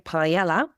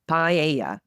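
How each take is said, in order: First: The middle consonant is an L sound. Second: The middle consonant is a Y sound. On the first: The speaker calls it wrong. "we don't say paella, P A E L L A" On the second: The speaker calls it right. "We swap the double L for the Y sound and it's paella"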